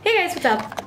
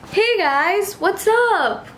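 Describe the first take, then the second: First: It is said in a calmer, plain way. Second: It is said in an over-dramatic way.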